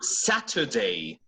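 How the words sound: The middle t is a crisp t sound. "That is British"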